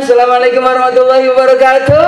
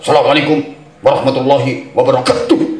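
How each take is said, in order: First: It is said like a singer greeting fans. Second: It is said firmly, like a policeman.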